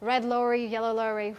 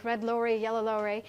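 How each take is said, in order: No difference in how they are said.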